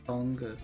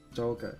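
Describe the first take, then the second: First: The name is said with a Chinese pronunciation. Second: The name is said with a Japanese pronunciation. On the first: "Changa sounds better" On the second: "J P versus Chinese pronunciation? ... Joga is easier to say"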